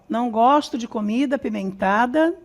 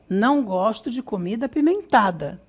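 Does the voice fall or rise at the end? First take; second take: rise; fall. First: The voice does not fall at the end. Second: The voice stays level, then falls at the end. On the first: The speaker calls it wrong. "Não, tá errada essa entonação" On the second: The speaker calls it right. "essa entonação, ela vem linear e desce"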